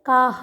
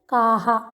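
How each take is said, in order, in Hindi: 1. शब्द सादे ह पर खत्म होता है, उसके बाद कोई स्वर नहीं। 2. अंतिम ह के बाद 'aa' स्वर की गूंज आती है। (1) "तो ये गलत हो जाएगा। काह नहीं बोलना है।" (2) "जब आ के बाद विसर्ग आता है तो उच्चारण होता है आहा"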